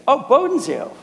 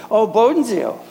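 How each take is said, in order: First: Much higher, lit-up exclamation; delighted recognition. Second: A touch of recognition, higher; mild surprise. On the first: Preacher imitates a landlady won over by the name, delighted. Landlady brightens, lets girls come. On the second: Preacher quotes a neighbor recognizing the school, mild surprise. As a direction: imitate a neighbor placing the name, lightly surprised. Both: Retold or imitated.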